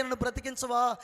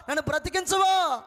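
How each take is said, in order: First: Said in the usual way. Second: Loud, high shouted plea; desperate shout. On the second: Retold or imitated. Dying man screaming to God to let him live, full shout. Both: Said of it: "అని కేకలు పెడతా ఉంటే".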